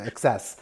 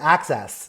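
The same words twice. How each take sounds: First: It is said in a standard accent. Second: It is said in a Staten Island accent. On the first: "as opposed to Access" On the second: "my accent from Staten Island calls it Access"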